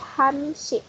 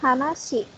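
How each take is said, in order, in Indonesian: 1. Angka itu dipendekkan menjadi han. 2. Angka itu diucapkan lengkap sebagai hana. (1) "tapi Hanshi" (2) "bukan Hanashi"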